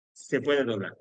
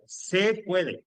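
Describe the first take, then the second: First: Said in the usual way. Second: "Se puede" said higher and punched; emphatic PUEDE. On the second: Real, not acted. Teacher telling students it is not obligatory, emphatic. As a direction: stress "Se puede" to mark it as only optional. Stresses that it is optional.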